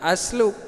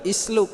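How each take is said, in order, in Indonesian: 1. Kata itu diawali vokal a. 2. Kata itu diawali vokal i. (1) "ini jangan dibaca asluk" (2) "atau isluk"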